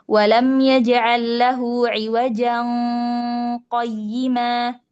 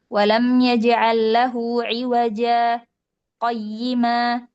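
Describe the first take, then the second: First: It runs on without a pause before qayyima. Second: A short pause comes before qayyima.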